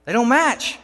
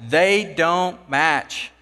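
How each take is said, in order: First: Insistent repeat. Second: Very slow, spelled out word by word; slow, deliberate insistence; drawn-out repeat. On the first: Worker repeats his find. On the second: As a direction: drag it out so they finally get it. Worker repeats, drawing it out. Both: Retold or imitated.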